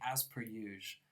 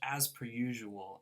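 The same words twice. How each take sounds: First: The phrase is said in a casual slang form. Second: The phrase is said in its standard full form. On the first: "it's kind of common to say it slang" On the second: "there's a saying in English"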